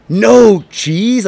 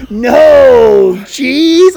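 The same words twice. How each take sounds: First: Shocked, rising "no cheese?"; shocked question. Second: High, loud disgusted "no cheese?". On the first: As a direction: ask it in disbelief. Retold friend's shocked reply. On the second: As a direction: recoil in disgust at the idea. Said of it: "she was disgusted". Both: Retold or imitated.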